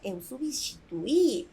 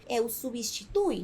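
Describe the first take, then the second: First: The stress is on the final i. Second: The stress is not on the final i. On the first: It is the past tense. The speaker calls it right. "acentuar a letra I para dar força" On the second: It is the present tense for you. The speaker calls it wrong. "Que não se pronuncie eu substitui"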